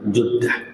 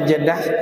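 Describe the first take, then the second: First: The first vowel sounds like 'u'. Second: The first vowel sounds like 'e'. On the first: "boleh dibaca Juddah" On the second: "boleh dibaca Jeddah"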